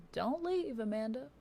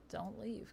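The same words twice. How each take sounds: First: Don't-go plea, pitched way up; high-pitched plea. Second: Said in the usual way. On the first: Real, not acted. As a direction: call out high to stop someone leaving. Pleads with someone not to leave.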